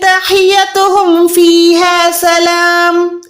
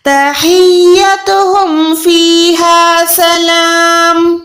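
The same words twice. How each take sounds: First: The y sound is short and single. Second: The y sound is held and doubled. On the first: The speaker calls it wrong. "लेकिन ये बिल्कुल गलत है" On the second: The speaker calls it right. "यहाँ पर आपने हा को या के साथ मिलाना है"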